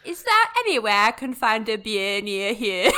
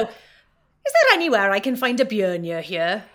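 First: A learner's imitation of Welsh Valleys; Welsh Valleys accent. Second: Slow, loud Welsh Valleys accent; a Welsh Valleys line for learners. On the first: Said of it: "that wasn't bad". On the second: Shown as a demonstration. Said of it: "give me the example".

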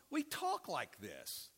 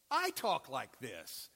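First: Slow, with the weight on "talk" and a falling close; stress on talk. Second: Slow, with the weight on "I" and a falling close; stress on I. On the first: Preacher scolding the congregation, leaning on "talk" slowly. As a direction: lean on "talk" in "we talk like this", and let "talk" fall. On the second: Preacher owning up to the congregation, leaning on "I" slowly. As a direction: lean on "I" in "I talk like this", and let "I" fall. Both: Shown as a demonstration.

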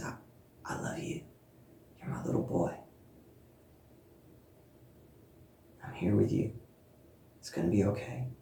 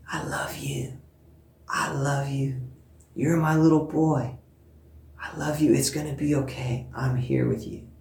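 First: Very soft whisper of comfort; hushed whisper. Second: Soft imitated toddler whisper to a doll. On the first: Retold or imitated. Speaker voicing God reassuring her, in a hushed whisper. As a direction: barely breathe it, tender and close. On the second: Mother imitating her son whispering to a baby doll, softly. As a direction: hush it like a child comforting a doll. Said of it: "whispering to this baby".

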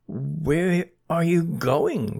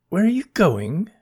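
First: Drawn out, deliberate repeat; slow repeated question. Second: High eager asking voice; curious question. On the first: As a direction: stretch each word slowly. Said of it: "repeated Bernie". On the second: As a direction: ask it quickly and brightly, pitched up. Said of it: "asked Bernie". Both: Acted.

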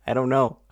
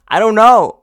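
First: Said in the usual way. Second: Much higher, louder "I don't know"; frustrated outburst. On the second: Real, not acted. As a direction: blurt "know" high in exasperation.

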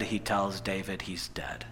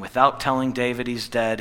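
First: Low, near-whispered delivery; hushed. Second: Said in the usual way. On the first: A narrator's reading. Preacher revealing the son's death to listeners, hushed. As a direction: drop to a grave hush.

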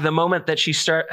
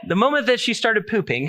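First: Said in the usual way. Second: Laughing through the words, higher. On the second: Real, not acted. Preacher telling about his daughter, laughing. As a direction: giggle while getting it out.

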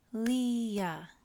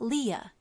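First: "Leah" split as Le-ah; "Leah" drawn out, one beat per syllable. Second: Said in the usual way. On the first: Shown as a demonstration. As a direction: break "Leah" into two separate beats. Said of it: "Leah has two syllables". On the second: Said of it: "It has two syllables".

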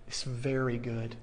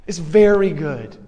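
First: Low, very soft delivery of the quote; hushed reveal. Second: Louder, ringing restatement of the quote; emphatic declaration. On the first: Preacher reveals what God said after mankind was made, hushed. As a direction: drop right down in pitch and volume. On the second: Preacher restates God's verdict to the congregation, emphatic. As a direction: land it firmly with a strong VERY GOOD. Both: Retold or imitated.

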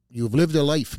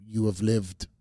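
First: Emphatic "you have lived a life"; stress on lived. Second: Said in the usual way. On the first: Real, not acted. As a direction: lean into "lived a life" to land the point. Host repeats it with emphasis.

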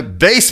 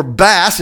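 First: BASS rhyming with face; long a in bass, like base; bass as the instrument. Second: BASS rhyming with pass; short a in bass; bass as the fish. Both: Shown as a demonstration. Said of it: "it's B A S S".

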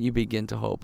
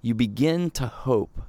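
First: Soft repeat. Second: Said in the usual way. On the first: Shown as a demonstration.

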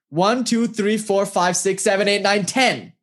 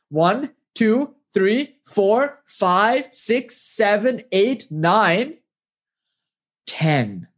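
First: Quick run from one to ten; brisk count. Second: Slow, separate numbers with a pause before ten; teaching count. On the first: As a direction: rattle off the numbers in one unbroken string. Guru briskly counts for them. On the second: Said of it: "I'll show you how to count". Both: Acted.

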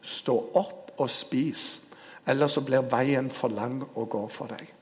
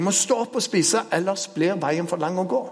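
First: Solemn key line. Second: Angel urging. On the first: Shown as a demonstration. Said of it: "hemmeligheten ligger i midten her". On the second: Retold or imitated. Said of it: "Og engelen går bort en gang til".

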